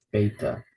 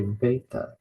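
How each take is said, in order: First: "beta" with a plain B, BAY-ta; B sound. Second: "beta" said with a V, as "veta"; V sound. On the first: Teacher contrasting with modern Greek, "beta" with a B. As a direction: start "beta" on a clear B. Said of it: "instead of beta". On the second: Teacher showing modern Greek usage, "beta" with a V. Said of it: "pronounce this as a V sound". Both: Shown as a demonstration.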